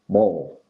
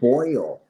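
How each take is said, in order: First: It is said in a Southern US accent. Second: It is said in a general US accent.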